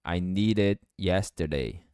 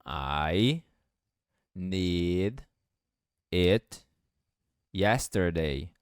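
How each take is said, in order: First: "I need it yesterday" smooth, "need it" as "nee rit"; linked need it. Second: Each word set apart, slow; one word at a time, robotic; "I need it yesterday" in separate slow words. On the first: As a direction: flap the D into "it". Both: Shown as a demonstration. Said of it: "o D vai ficar com som de R".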